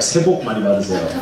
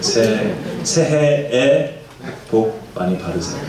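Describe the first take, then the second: First: The greeting is said fast and shortened. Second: The greeting is said slowly and in full.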